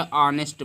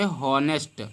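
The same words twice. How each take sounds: First: ऑनेस्ट with silent H; ऑनेस्ट said "o-nest", no H; correct reading. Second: हॉनेस्ट with the H sounded; literal misreading. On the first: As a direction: start ऑनेस्ट straight on the vowel. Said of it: "ऑनेस्ट पढ़ते हैं". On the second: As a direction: breathe an H at the start of हॉनेस्ट. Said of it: "हॉनेस्ट में एच नहीं पढ़ते". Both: Shown as a demonstration.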